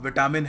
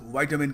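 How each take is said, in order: First: It is said with a common Indian accent. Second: It is said with an American accent. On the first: "हम chemist के पास जाके कहते हैं विटामिन है। So विटामिन इसकी बहुत ही गलत प्रोनाउंसिएशन है।" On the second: "Americans विटामिन कहते हैं"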